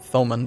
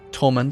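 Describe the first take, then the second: First: The name begins with a TH sound. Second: The name begins with a plain T sound. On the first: The speaker calls it wrong. "it's not pronounced Thomund" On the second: The speaker calls it right. "Apparently it's just Tolmund"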